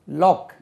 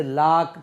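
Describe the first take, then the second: First: லாக் with a rounded o vowel, like lock; லாக் said "lok", lips rounded on the o; correct pronunciation. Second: லாக் with an open a vowel, like lack; the mistaken லாக் said "lak" with a flat a; wrong pronunciation. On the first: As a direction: model the right லாக் as "lok" with a clear o. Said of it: "ஓ, லாக்". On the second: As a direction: show the common error: லாக் as "lak". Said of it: "அது லாக் கிடையாது". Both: Shown as a demonstration.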